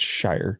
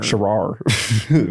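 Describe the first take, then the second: First: The name sounds like the word 'shire'. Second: The name sounds like 'sha-rar'. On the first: This is how the player's name is really said. The speaker calls it right. "It's Shire" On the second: This is how the name looks from its spelling. The speaker calls it wrong. "which is how I would looking at it"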